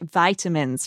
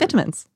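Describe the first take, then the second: First: The word is said with an American accent. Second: The word is said with a British accent. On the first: "for the Americans" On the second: "they just have a British accent"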